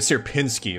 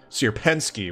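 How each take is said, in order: First: The second vowel sounds like the one in pin. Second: The second vowel sounds like the one in get. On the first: The speaker calls it wrong. "I was pronouncing it Sierpinski, like with an I like in pin" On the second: The speaker calls it right. "it's Sierpensky with an e like in get"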